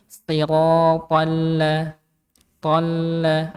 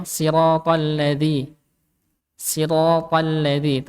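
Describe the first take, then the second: First: "siratal la-" lingering on the doubled l; held lam. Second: "siratal ladzi" gliding past the l without holding it; unheld lam. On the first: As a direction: slowly hold and slightly drag the l in "siratal la-". ("siratal la-" dengan lam sedikit ditahan) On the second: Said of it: "bahkan jangan bacanya". ("siratal ladzi" tanpa menahan huruf lam) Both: Shown as a demonstration.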